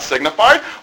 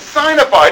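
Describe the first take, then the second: First: The first syllable sounds like sig. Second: The first syllable sounds like the word sign. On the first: The speaker calls it wrong. "It's not signified" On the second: The speaker calls it right. "That's exactly right. It's signified"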